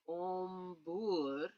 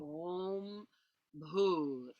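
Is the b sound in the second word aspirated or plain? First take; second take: plain; aspirated. First: The b is plain, with no breath after it. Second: The b is followed by a strong puff of breath. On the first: The speaker calls it wrong. "instead of going om bur" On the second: The speaker calls it right. "you want to make the H aspirated"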